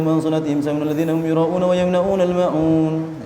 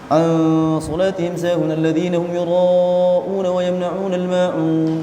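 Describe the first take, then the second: First: Fast, with the nasal sounds slurred and cut. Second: Fast, with the nasal sounds held fully. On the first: The speaker calls it wrong. "dengung-dengungnya sudah enggak karuan" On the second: The speaker calls it right. "dengung-dengungnya sempurnakan"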